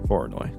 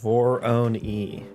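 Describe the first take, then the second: First: The word ends with an 'oy' sound. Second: The word ends with an 'ee' sound. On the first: The speaker calls it right. "Now we now we know what's right" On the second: The speaker calls it wrong. "I used to think Voronoi was pronounced Vor-own-e"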